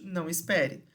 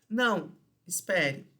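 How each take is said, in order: First: There is no pause after the first word. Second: There is a pause after the first word.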